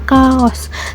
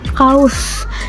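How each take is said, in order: First: The two vowels are said as separate syllables. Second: The two vowels glide together as one diphthong. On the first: This is the Sundanese pronunciation. "di Sunda diucapkan kaos" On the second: This is the Indonesian pronunciation. "di Indonesia sering jadi diftong"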